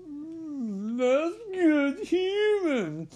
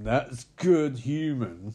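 First: High, slow mock-savoring murmur; hammed-up high Hannibal savoring his meal. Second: Said in the usual way. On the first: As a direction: purr it like relishing a delicacy. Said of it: "being like". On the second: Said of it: "And he's like".

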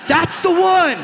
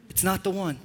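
First: Louder high-pitched, over-the-top infatuation; smitten teenager. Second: Soft, dry letdown in your usual pitch; quietly puncture the fantasy; deadpan rebuttal. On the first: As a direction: insist like a lovestruck teen, voice shooting up. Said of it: "you're like". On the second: Deadpan rebuttal of acted teenager. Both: Acted.

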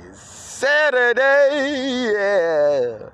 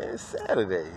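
First: Very high, loud, drawn-out holler; soaring weekend cheer; exuberant shout. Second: Said in the usual way. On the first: Real, not acted. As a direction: belt out the day, stretching every vowel. Cheers the day after plain take.

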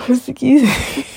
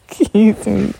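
First: A real yawn stretching the words. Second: Said in the usual way. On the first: Real, not acted. Tired host yawning into the podcast mic. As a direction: excuse me through a yawn. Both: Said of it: "sorry for yawning".

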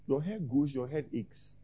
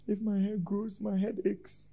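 First: Said in the usual way. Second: Soft, high voice mimicking a complainer; offended church member. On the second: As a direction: make the excuse in a small, high voice. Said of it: "Some people feel insulted".

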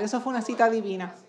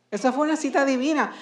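First: Said in the usual way. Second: "Eso fue una cita divina" pitched higher; emphatic repeat. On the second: Real, not acted. Preacher drives the lesson home, "cita divina" raised emphatically.

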